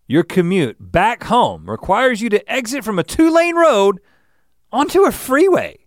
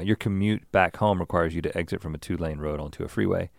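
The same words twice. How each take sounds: First: It is read with much more energy. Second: It is read plainly with low energy.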